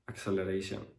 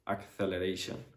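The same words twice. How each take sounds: First: The c is said as a th sound. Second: The c is said as a th sound.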